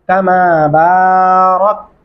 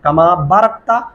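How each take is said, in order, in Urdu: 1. b کے بعد کی آواز لمبی ہے۔ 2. b کے بعد کی آواز چھوٹی ہے۔ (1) "الف ہے جس کی وجہ سے با نے لمبا ہونا ہے" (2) "بالکل غلط ہے"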